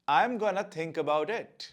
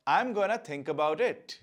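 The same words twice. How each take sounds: Both takes have the same delivery.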